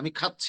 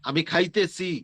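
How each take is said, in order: First: It uses the short standard verb form. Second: It uses the long regional verb form. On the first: The speaker calls it right. "কি বলতে হবে?" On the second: The speaker calls it wrong. "তাহলে আর হবে না"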